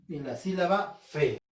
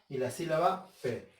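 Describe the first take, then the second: Both takes have the same delivery.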